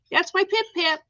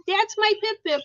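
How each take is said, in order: First: High cooing with stress on "Pip"; pet talk. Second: Higher cooing with stress on "my"; pet talk. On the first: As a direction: coo the name "Pip Pip" to your pet bird. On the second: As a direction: coo "my" lovingly to your pet bird. Cooing at bird Pip. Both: Real, not acted.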